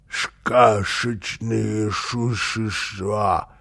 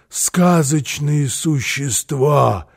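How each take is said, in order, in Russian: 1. Звуки «с» шепелявые и смазанные. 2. Звуки «с» произносятся чётко.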